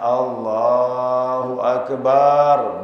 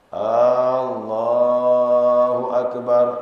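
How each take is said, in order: First: The vowel after b is drawn out. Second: The opening vowel is drawn out. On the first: "Ba-nya panjang" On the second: "Apakah Allah Maha Besar?"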